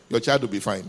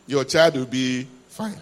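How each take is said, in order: First: Said in the usual way. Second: Slow, deliberate reassurance. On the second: Real, not acted. Preacher reassuring overprotective parents, slow and deliberate "Your child will be fine". Repeated slowly to anxious parents.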